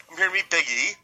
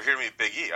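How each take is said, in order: First: Mock offended, higher and louder; all offended. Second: Said in the usual way. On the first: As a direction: act affronted at being asked. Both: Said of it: "like, all offended".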